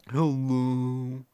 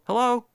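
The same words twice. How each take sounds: First: It is said in a gloomy, miserable way. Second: It is said in a cheerful, friendly way.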